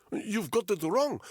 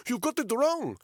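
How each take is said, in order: First: High, desperate Russian prisoner; high-pitched frantic denial; panicked protest. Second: Higher and louder, desperate; panicked high shout; louder frantic repeat. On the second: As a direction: shout the plea even harder. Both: Acted. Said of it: "he said in Russian".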